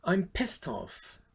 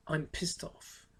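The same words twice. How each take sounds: First: Drawn-out, slow annoyed complaint. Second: Said in the usual way. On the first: Shown as a demonstration. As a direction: drag out I'm with irritation. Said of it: "vous êtes très énervé quand vous dites ça". (énervé et traînant) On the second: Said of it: "vous êtes très énervé".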